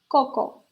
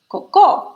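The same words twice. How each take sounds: First: The stress is on the first syllable. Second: The stress is on the second syllable. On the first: It means coconut. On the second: It means poop.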